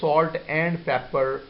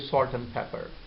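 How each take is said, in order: First: Every sound in the phrase is pronounced. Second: Some sounds in the phrase are dropped. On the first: "instead of saying" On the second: "we say"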